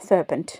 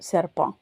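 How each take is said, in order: First: The word ends with a clear n and t. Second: The word ends in a nasal vowel, no t. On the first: "இங்கிலீஷில்" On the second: "அந்த கடைசியில் இருக்கிற டீயை வந்து உச்சரிக்க மாட்டோம்"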